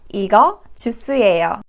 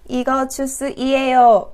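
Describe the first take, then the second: First: The ending is contracted into one syllable. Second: The ending is said as two separate syllables. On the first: The speaker calls it right. "No, no, no" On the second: The speaker calls it wrong. "Please don't say 이거 주스이에요"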